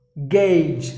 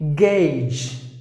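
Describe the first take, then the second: First: The vowel is an 'ay' sound. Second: The same.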